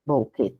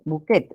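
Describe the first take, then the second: First: "Bouquet." in French, bu-KEH with a silent final t; "Bouquet." said softer and lower, as the French original with no t; French pronunciation. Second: "bouquet?" read the Spanish way, every letter sounded, final t included: bu-KET; "bouquet?" spelled out aloud as Spanish, ending on a crisp t. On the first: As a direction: drop the t in "Bouquet." and end on an open e, the French way. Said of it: "el original es este". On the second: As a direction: say "bouquet?" as written, bu-ket with a clear t. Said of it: "¿Cómo sería bu". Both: Shown as a demonstration.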